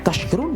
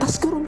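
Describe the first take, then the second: First: The middle consonant is a sh sound. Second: The middle consonant is an s sound. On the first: It means becoming grateful. The speaker calls it right. "perbedaannya hanya sya dan sa saja" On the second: It means becoming drunkards. The speaker calls it wrong. "perbedaannya hanya sya dan sa saja"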